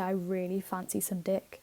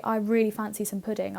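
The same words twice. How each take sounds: First: Softer, lower cheeky version of the line; mischievous murmur; sly quiet swap. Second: Said in the usual way. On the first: Shown as a demonstration. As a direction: drop it low as a naughty joke. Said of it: "I could say". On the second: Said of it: "So when I say".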